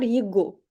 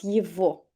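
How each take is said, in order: First: The middle consonant is a g sound. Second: The middle consonant is a v sound. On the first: This is how the written letters suggest it should sound. "Debiese sonar" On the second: This is how native speakers actually say it. "pero decimos"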